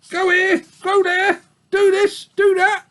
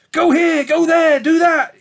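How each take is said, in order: First: Very high whiny sheep mocking the orders; singsong the nagging orders sourly; old ewe mimicking wolves' nagging; complaining old ewe. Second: High, loud piglet squeak ordering; furious squeak. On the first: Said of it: "hoarse, complaining voice". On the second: Acted. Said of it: "he squeaked furiously at them".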